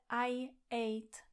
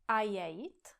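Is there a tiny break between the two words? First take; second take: yes; no. First: A tiny break separates the two words. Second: The two words run smoothly together. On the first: The speaker calls it right. "Je tam taky ta mini pauza" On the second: The speaker calls it wrong. "taky neřeknete I ate"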